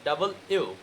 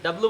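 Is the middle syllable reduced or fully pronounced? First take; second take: fully pronounced; reduced. First: Every syllable is said out fully and separately. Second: The middle syllable is squeezed into a quick blur. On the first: The speaker calls it right. "বলতে হবে কি এখন থেকে ডাবল ইউ" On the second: The speaker calls it wrong. "আমরা যেটাকে ডাব্লু বলতাম"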